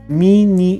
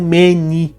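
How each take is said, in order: First: The first vowel sounds like i. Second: The first vowel sounds like e. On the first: The speaker calls it right. "mini e não meni" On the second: The speaker calls it wrong. "e não meni"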